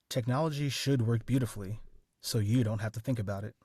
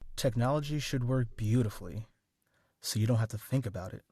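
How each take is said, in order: First: The stress falls on should and you. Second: The stress falls on beautifully and think.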